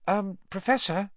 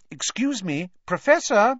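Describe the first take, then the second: First: High, tentative call; hesitant, polite, pitched up; cautious. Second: High call rising to loud; insistent, polite summons getting louder. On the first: A narrator's reading. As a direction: try gently to get his attention. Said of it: "Hermione approached Professor Lupin cautiously". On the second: Acted. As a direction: raise your voice to wake him. Girl calls again to wake sleeper.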